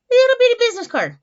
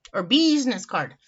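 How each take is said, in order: First: "little bitty business card" high and loud; high, playful emphasis on "Little bitty"; playful squeal. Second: Said in the usual way. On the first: Real, not acted. Cooing over the tiny card.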